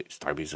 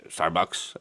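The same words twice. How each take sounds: First: Starbucks said as Starbies, the ending swapped for -bies; slang Starbucks. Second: Said in the usual way. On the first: Shown as a demonstration. To viewers, quoting young people's slang: Starbucks said as Starbies. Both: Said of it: "as the young people call them".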